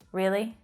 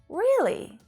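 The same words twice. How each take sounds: First: It is said in an annoyed, unimpressed tone. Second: It is said in a wondering, questioning tone. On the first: The speaker is annoyed or unimpressed. "it shows that you're annoyed or you're unimpressed" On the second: It is a real question. "you use that wondering tone"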